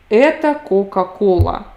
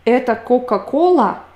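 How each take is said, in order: First: It is said with statement intonation. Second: It is said with question intonation. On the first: This is Coca-Cola. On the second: Is this Coca-Cola?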